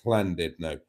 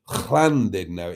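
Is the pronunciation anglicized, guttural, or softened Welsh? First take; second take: softened Welsh; guttural. First: A Welsh pronunciation that is softened, not harsh. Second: A strongly guttural, harsh Welsh pronunciation. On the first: This is how Welsh people actually say it. "even the Welsh pronounce it as Llandudno" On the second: This is the correct form in theory. "it's too harsh"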